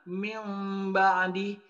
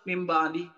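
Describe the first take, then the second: First: The nasal sound before the b is held long. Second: The nasal sound before the b is rushed short. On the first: The speaker calls it right. "ada penahanan" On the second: The speaker calls it wrong. "langsung dipercepat"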